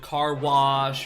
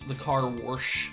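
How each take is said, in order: First: Wash is said without an R sound. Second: Wash is said with an added R sound.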